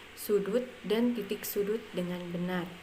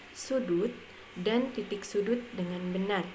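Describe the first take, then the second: The two takes are said the same way.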